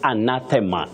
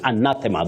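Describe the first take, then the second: First: The stress is not on the second syllable. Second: The stress is on the second syllable. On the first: "or you can say anathema" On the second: "with a stress on the second syllable is the best pronunciation"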